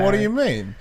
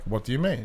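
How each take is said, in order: First: It is said with lively, mocking inflection. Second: It is said flatly, with little inflection. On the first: The speaker is being a jerk for fun. "I would like put some inflections and shit on it for fun, especially when I'm being a jerk" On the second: The line is simply read out. "Rather than just being like"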